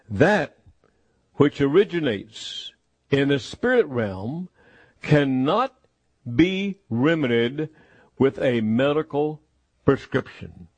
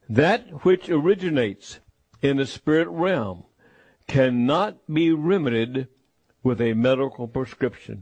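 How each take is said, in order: First: It is said slowly and deliberately. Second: It is said at a normal speed.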